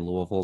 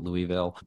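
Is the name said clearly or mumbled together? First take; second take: mumbled; clear. First: The name is mumbled and run together. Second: The name is said clearly, sound by sound. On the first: This is how locals say it. The speaker calls it right. "we say Louisville, ... put marbles in your mouth and try to say it" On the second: This is how outsiders say it. The speaker calls it wrong. "not Louisville"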